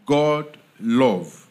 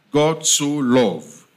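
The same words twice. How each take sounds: First: Said in the usual way. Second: Slow, weighty stress on "so love"; emphatic so love. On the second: Shown as a demonstration. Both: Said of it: "is an emphasis on love".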